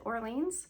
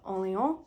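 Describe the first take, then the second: First: The name is said with an American English pronunciation. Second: The name is said with a French-style pronunciation. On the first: The speaker calls it wrong. "which is how, yes, we pronounce New Orleans here in the States" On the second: The speaker calls it right. "something to the effect of Orléans"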